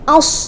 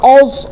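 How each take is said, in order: First: The opening vowel is thin and light. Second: The opening vowel is thick and dark. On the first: The speaker calls it right. "tipiskan dulu a, kemudian baru masuk ke sodnya ditebalkan" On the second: The speaker calls it wrong. "Jangan hamzahnya ikut tebal"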